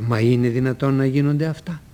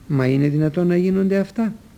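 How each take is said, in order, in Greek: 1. Λέγεται με θαυμαστικό τονισμό. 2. Λέγεται με ερωτηματικό τονισμό. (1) "Αλλά και να θαυμάσω μπορώ" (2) "Ρωτάω"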